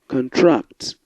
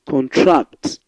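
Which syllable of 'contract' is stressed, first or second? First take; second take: second; second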